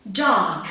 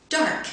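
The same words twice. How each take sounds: First: Dark as dahk, no R. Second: Dark with the R sounded before the k; American dark. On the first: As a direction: say Dark the British way, dropping the R. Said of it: "first in received pronunciation". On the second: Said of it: "second in General American". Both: Shown as a demonstration.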